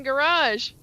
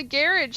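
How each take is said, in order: First: Garage as guh-RAHZH, stress last; "garage" with a long second syllable; American garage. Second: Garage as GARR-ij, stress first; "garage" ending in a short -ij; Irish-style garage. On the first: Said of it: "so you quit saying garage". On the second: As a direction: say garage to rhyme with carriage. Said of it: "changing how I say some of the words". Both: Shown as a demonstration.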